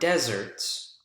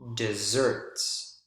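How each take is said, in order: First: The stress is on the first syllable. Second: The stress is on the second syllable. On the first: It refers to dry places. "the word stress here on the first syllable" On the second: It refers to sweet food. "Notice the word stress on the second syllable"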